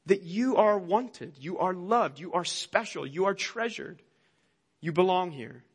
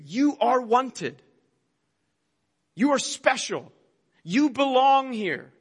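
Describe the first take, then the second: First: The same words again, softer and falling, tender; gentle reassurance. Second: Slow, higher, emphatic preaching of each phrase; proclaiming. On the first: Pastor gently reminds listeners they belong, soft and tender. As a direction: let each line settle quietly like a reassurance. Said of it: "It all reminds us". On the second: The toys preach to the child, slow emphatic proclamation. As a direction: proclaim every word like a promise from the pulpit. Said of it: "preaching to you". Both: Acted.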